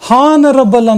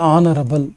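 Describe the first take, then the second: First: The word begins with an audible H sound. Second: The word begins directly with a vowel sound. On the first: The speaker calls it wrong. "ಹಾನರಬಲ್ ಅಂತ ಉಚ್ಚಾರ ಮಾಡಿದ್ರೆ ತಪ್ಪು" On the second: The speaker calls it right. "ಇದು actually ಆನರಬಲ್"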